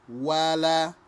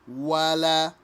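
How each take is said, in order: No difference in how they are said.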